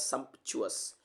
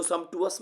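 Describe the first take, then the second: First: सम्पचुअस with a clear P-CH, as "sump-chu-us"; correct सम्पचुअस. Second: सम्पचुअस with a plain T, as "sum-too-us"; mispronounced सम्पचुअस. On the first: Teacher shows students how it is read, सम्पचुअस said as "sump-chu-us". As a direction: sound the "ch" after the P in सम्पचुअस. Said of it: "इसको पढ़ा जाता है". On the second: Teacher warns students against this reading, सम्पचुअस mispronounced as "sum-tu-us". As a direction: say सम्पचुअस without the P-CH cluster, "sum-tu-us". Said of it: "इसको सम्पचुअस मत पढ़ना". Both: Shown as a demonstration.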